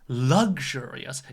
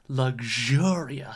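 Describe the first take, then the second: First: The stress is on the first syllable. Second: The stress is on the second syllable. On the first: The speaker calls it wrong. "It's not luxurious" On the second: The speaker calls it right. "So the stress is on the second syllable"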